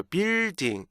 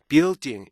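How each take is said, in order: First: BUILDING as a lengthened bil, then ding; "building" Korean-style, just dragged out; mistaken long vowel. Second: BUILDING with a held L and a stop before ding; "building" with rhythm on the consonants; native-style building. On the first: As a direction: mimic learners stretching the first syllable of "building". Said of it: "리듬이 약간 길고 나서 building 이렇게". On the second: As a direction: give "building" its inner beats, bee-ul-ding. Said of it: "building 이걸 듣고요". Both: Shown as a demonstration.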